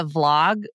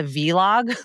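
First: Said in the usual way. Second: "vlog" said as vee-log, two syllables; mispronounced vlog. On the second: Retold or imitated. Host owning up to calling "vlog" a vee-log, mispronounced. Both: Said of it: "I actually called it a vlog".

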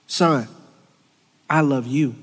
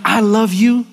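First: Dad's gentle voice. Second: Higher and louder, rising at the end; earnest declaration. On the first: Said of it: "hearing my dad say". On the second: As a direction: declare it up and out to God. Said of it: "me telling God". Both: Retold or imitated.

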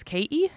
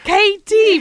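First: [name] with the T left out, like "Kay-ee"; Irish dropped T. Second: [name] loud and high, with a hard T; exasperated mock correction, [name] as "KAY-TEE"; emphatic correction. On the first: Shown as a demonstration. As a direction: say [name] without pronouncing the T. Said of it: "I don't pronounce my T's". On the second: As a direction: spell out the T in [name], slowly and forcefully. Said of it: "I had to always be like".

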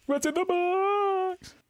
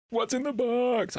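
First: Very high, long drawn-out mock wail; Brad Pitt. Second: High, drawn-out movie-quote cry; hammed-up anguished film star impression; Brad Pitt. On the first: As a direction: stretch BOX out in a squealing movie-star parody. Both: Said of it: "without going Brad Pitt".

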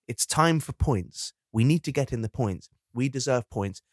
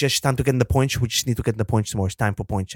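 First: Said in the usual way. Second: Rushed, slurred mumble; Bottas impression. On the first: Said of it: "whenever you say". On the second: Imitating Bottas talking about points, slurred mumble. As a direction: run the words together as a mumbling driver. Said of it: "And then he goes".

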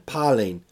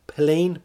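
First: "Palin" said as PAH-lin; alternative pronunciation. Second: "Palin" said as puh-LEEN; alternative pronunciation. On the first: Unsure of Sarah's surname, trying "Palin" as PAH-lin. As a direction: open "ah" in the first syllable of "Palin". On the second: Unsure of Sarah's surname, trying "Palin" as puh-LEEN. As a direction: stress the long second syllable of "Palin", puh-LEEN. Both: Shown as a demonstration.

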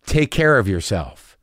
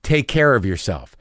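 First: "Take care of yourself" said slowly, leaning hard on "care"; slow ominous tone. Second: "Take care of yourself" with a heavy, loaded fall on "care"; ominous tone. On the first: Tech to patient after the scan, slow and ominous. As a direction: draw it out like a grim warning. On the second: Tech sending off a worried patient, in an ominous tone. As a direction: let "care" weigh like bad news. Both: Shown as a demonstration. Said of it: "Did you hear my tone just then?".

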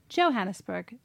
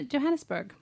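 First: Said "Johannesburg" starting with a hard English J like in jump. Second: Said "Johannesburg" with a soft J like Y, sounding yoh-hannesburg; "Johannesburg" with the J softened toward a Y. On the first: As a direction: hit the J in "Johannesburg" hard, like jam. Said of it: "I'd go Hard J". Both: Shown as a demonstration.

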